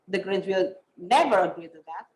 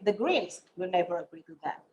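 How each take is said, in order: First: The stress is on never. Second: The stress is on Greens.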